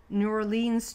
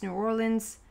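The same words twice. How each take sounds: First: "Orleans" with a long "leens" ending; alternate pronunciation. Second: "Orleans" with a reduced "lunz" ending; alternate pronunciation. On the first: Reader offering viewers both city pronunciations, here or-LEENS. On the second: Reader offering viewers both city pronunciations, here OR-lunz. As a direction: say Orleans as OR-lunz, short last vowel. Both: Shown as a demonstration. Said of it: "is that what you say?".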